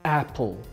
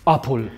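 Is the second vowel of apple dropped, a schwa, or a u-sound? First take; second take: schwa; u-sound. First: The second vowel is a short, weak schwa. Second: The second vowel sounds like U. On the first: The speaker calls it right. "schwa, czyli nieakcentowana samogłoska" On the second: The speaker calls it wrong. "jako U"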